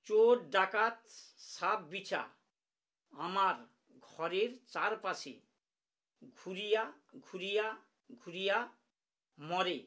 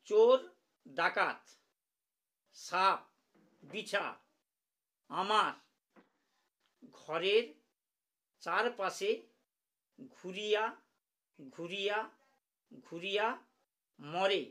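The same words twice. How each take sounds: First: The words are recited at a normal pace. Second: The words are recited slowly and deliberately.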